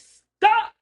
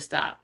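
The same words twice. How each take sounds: First: It is shouted loudly. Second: It is said calmly.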